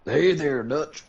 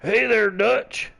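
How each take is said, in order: First: Higher, louder mock cowboy greeting; Arthur Morgan voice. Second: Slow, high, put-on cowboy drawl; Arthur Morgan voice. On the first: Friend answers with his own Arthur Morgan try. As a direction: throw out a rough outlaw hello. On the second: Friends practicing Arthur Morgan impression, hammed-up drawl. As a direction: try a rough Texan outlaw greeting. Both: Shown as a demonstration. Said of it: "let's hear yours".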